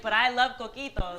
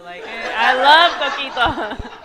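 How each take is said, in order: First: Said in the usual way. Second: Slow, loud mock gushing with a laugh; laughing exaggeration. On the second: Husband loving the coquito, mimicked with laughing exaggeration. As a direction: stretch LOVE out, loud and laughing.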